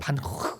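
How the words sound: The name is said the Dutch way. "네덜란드 원어로는요"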